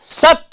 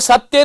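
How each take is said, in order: First: The first syllable has extra stress. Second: The first syllable has no extra stress. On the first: The speaker calls it right. "सत्य होता है" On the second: The speaker calls it wrong. "सत्य नहीं होता है"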